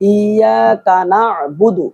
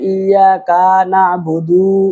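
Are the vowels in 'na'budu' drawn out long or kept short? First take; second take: short; long. First: The vowel on the d sound is kept short. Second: The vowel on the d sound is drawn out long. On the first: The speaker calls it right. "দালের উপরেও মদ হবে না" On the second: The speaker calls it wrong. "দালে পুরো মত করে বুধু ... না এরকম না"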